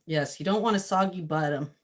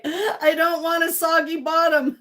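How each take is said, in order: First: Said in the usual way. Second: Louder, slow mock British accent; slow mock British accent on soggy bottom. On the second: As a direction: put on a baking show accent. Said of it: "You read that in an accent?".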